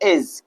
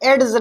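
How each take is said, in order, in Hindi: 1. j से पहले कोई अलग d ध्वनि नहीं बोली जाती। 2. j से पहले एक स्पष्ट d ध्वनि बोली जाती है। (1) "क्या पढ़ेंगे भैया, एज" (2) "एड्स नहीं पढ़ेंगे हम"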